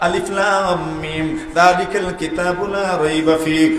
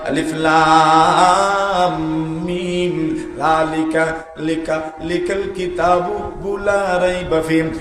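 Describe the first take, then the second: First: It flows quickly without stopping between words. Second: It stalls and repeats syllables mid-phrase. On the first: The reciter is skilled with the text. The speaker calls it right. "মধ্যখানে আটকে যায় না" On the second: The reciter struggles with the text. The speaker calls it wrong. "মধ্যখানে আটকে যায়, মধ্যখানে থমকে যায়"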